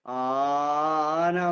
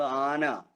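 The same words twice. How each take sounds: First: ആന with the opening aa held very long; overlong vowel. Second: Said in the usual way. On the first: Shown as a demonstration. Teacher showing what nobody says, ആന with an overstretched aa. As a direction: drag out the first vowel of ആന, aaaa-na. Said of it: "എന്ന് ആരും പറയാറില്ല". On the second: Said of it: "എന്നൊക്കെ പറയുമ്പോ".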